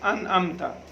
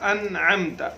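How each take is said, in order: First: The second word starts with a plain glottal stop. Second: The second word starts with a throaty 'ayn sound. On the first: The speaker calls it wrong. "बाज़ लोग दोनों को हमजा के साथ पढ़ देते हैं" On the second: The speaker calls it right. "अन में हमजा है और अम में आइन है"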